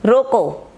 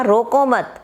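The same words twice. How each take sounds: First: "रोको" alone as a complete command; रोको cut off from what follows; stop after रोको. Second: "रोको मत" joined as one phrase; मत attached to रोको without a break; no pause before मत. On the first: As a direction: say रोको by itself, falling, then pause. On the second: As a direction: run रोको straight into मत. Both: Shown as a demonstration. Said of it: "एक में कहा".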